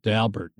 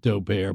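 First: The name is said in a plain, ordinary way. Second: The name is said in a fancy, affected way. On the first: The speaker calls it right. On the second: The speaker calls it wrong.

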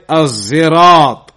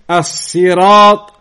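First: The word has a z sound instead. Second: The word has a plain, light s sound. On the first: "and with a zai" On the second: "with a sin"

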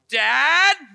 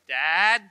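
First: It is called out much louder. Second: It is called out quietly.

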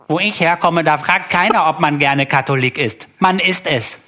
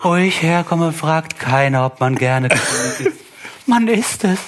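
First: It is read in a plain voice. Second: It is read in a suffering voice.

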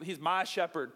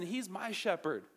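First: It sounds possessive and selfish. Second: It sounds sincere and warm.

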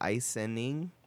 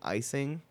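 First: The word is said with an extra n sound. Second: The word is said without an extra n sound. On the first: The speaker calls it wrong. "they all say icening" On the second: The speaker calls it right. "instead of saying icing, like a normal family"

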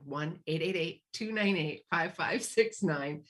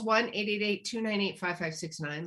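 First: The number is read more slowly. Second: The number is read quickly.

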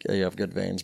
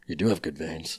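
First: It is said in a plain, ordinary voice. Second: It is said in a dramatic movie-narrator voice.

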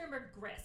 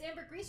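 First: The word is pronounced the American way. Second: The word is pronounced the French way. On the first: "you can do it American" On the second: "you can do it French"

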